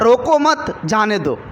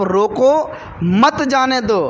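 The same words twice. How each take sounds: First: Slow रोको मत as one unit, a break, then जाने दो; pause after मत. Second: Slow रोको, a clear break, then मत जाने दो; pause after रोको. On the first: Preacher shows the misheard order, pause after मत. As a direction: stretch it out, attaching मत to रोको before pausing. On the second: Preacher shows officer's intended order, pause after रोको. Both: Shown as a demonstration. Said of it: "ये दोनों बात में".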